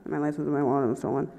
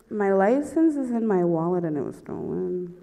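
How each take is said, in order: First: Fast, low mumble; rushed repeat. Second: Halting confession. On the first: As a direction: rattle the confession off under your breath. Repeats after cop says What. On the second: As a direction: spell it out haltingly for the officer. First answer to the cop. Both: Retold or imitated.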